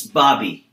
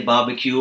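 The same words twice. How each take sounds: First: "barbie", barbecue cut down to end in an ee sound; Australian short form. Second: Said in the usual way. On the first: Shown as a demonstration. Teacher showing learners Australian slang, "barbie" as shortened barbecue. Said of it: "For them, it's barbie". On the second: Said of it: "Usually we say barbecue".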